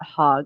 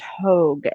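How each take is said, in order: First: The vowel is a short o sound. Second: The vowel is a long o sound. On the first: The speaker calls it wrong. "and not Hog" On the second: The speaker calls it right. "it's pronounced Hogue"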